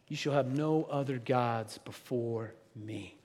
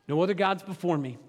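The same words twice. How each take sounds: First: Slow, low solemn reading; a slow, grave intoned command; solemn commandment. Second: Said in the usual way. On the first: Pretend. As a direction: intone it like scripture, slowly.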